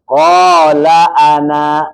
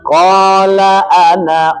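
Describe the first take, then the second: First: The last vowel of ana is long. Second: The last vowel of ana is short. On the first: The reading stops at this word. "kalau wakaf di ana" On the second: The reading continues into the next word. "kalau wasal"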